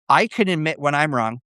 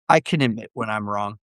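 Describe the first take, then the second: First: It is said in an open, sincere tone. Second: It is said in a grudging, defensive tone. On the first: The person is truly open to being wrong. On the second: The person does not really want to admit it.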